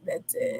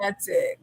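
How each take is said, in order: First: "That's it." whispered under the breath; whispered echo. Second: Said in the usual way. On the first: Shown as a demonstration. Agreeing with her friend, a whispered echo. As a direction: drop to a whisper on the repeat.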